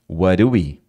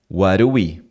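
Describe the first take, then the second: First: The words are reduced and run together. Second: The words are reduced and run together.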